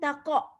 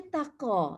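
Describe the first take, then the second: First: The qaf is stopped flat without any echoing vowel. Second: The qaf is released with a thick, slight echoing vowel. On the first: The speaker calls it wrong. "bukan taqa" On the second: The speaker calls it right. "So kita membaca taqa gitu ah"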